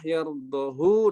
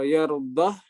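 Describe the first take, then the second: First: The word ends on a lengthened u vowel. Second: The word ends on a silent h consonant. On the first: "dengan dhammah yardahu dengan silah" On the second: "membaca dengan iskan"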